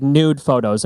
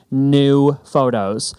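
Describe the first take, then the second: First: Said in the usual way. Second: NEW drawn out slowly, clearly apart from photos; deliberately slow. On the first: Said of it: "if I say it too quickly". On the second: Shown as a demonstration. Designer telling clients to go do new photos, slowly. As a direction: stretch out "new" so it can't blur into "photos". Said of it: "I have to say that slowly".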